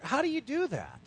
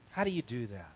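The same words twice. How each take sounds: First: "How do you do that?" asked higher and pointed; questioning challenge. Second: "How do you do that?" repeated lower and softer; hushed echo of the question; quiet reflective repeat. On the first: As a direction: put the question to them directly. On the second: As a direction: let it sink in, pondering. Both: Shown as a demonstration.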